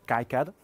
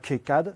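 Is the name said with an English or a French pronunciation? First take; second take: English; French. First: The name is said with an English pronunciation. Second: The name is said with a French pronunciation. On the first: The speaker calls it right. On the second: The speaker calls it wrong.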